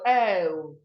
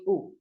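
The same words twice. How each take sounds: First: The vowel sound is held long. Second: The vowel sound is cut short. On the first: The speaker calls it right. "we should go O" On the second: The speaker calls it wrong. "Not when you have O, we are going O"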